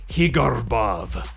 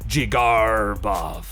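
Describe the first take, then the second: First: The first sound is a Spanish H. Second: The R is drawn out like a pirate. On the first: "Some people even go with Spanish" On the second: "short jig, long R like a pirate, short bov"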